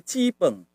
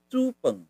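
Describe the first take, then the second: First: Cipeng with an "ee" first syllable; local pronunciation. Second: Cupeng with an "oo" first syllable; our pronunciation. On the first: Teacher quotes the local Taiwanese word, cipeng with "ee". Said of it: "dia pakai cipeng". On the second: Teacher gives our own version, cupeng with "oo". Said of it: "Padahal kita cupeng". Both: Shown as a demonstration.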